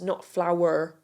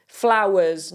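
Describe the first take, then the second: First: Flower said without the final s, dropping the r; singular flower. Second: Flowers said with a clear final z; flowers, plural. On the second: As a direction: stress the plural ending of Flowers. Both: Shown as a demonstration.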